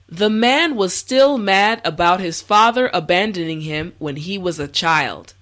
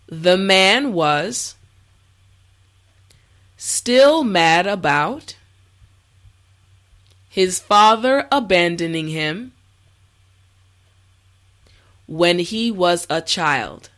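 First: The sentence is said at a normal pace. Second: The sentence is said slowly. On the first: "the last time at a regular pace" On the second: "this time repeat after me"

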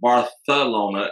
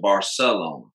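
First: The c is said like th. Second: The c is said like s. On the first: "a lot of them will say Barcelona ... their S's are TH's" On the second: "as opposed to Barcelona"

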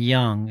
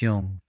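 First: It is said in a standard, non-northern accent. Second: It is said in a northern English accent.

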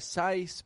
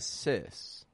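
First: The vowel is an eye sound. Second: The vowel is a short i sound. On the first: The speaker calls it wrong. "or a sice" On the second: The speaker calls it right. "but a sys"

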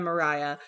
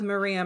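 First: The middle syllable has an 'eye' vowel. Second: The middle syllable has an 'ee' vowel. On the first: This is the English pronunciation. "in England, they pronounce it Mariah" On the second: This is how it looks when read from the spelling. "I read that name this whole book as Maria"

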